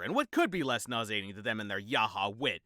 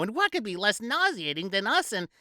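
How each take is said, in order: First: Said in the usual way. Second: High, sing-song lady voice; mock party lady. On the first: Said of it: "narrator repeats bitterly". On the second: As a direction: tease like delivering a punchline. Woman delivers punchline.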